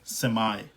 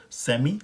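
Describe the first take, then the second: First: सेमी said the American way, "sem-eye"; American semi. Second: सेमी said the British way, "sem-ee"; British semi. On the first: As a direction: end सेमी on a long "eye". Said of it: "American pronunciation में हो गया सेमी". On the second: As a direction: end सेमी on a clear "ee". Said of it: "British में हो गया सेमी". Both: Shown as a demonstration.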